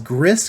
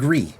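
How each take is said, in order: First: The word ends with an audible s sound. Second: The word ends on a vowel, no s sound. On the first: The speaker calls it wrong. "a lot of you people might pronounce it as Gris because it's spelled G R I S" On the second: The speaker calls it right. "it's called Gree"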